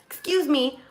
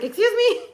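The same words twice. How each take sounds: First: High-pitched retold double take; taken aback, voice lifted; shocked disbelief. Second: Very high, loud mock outrage; hammed-up disbelief, shooting way up; incredulous shock. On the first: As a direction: act out being taken aback. Shocked reply to wife's accusation. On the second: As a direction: squeal it as a stunned question. Re-enacts shock at the accusation.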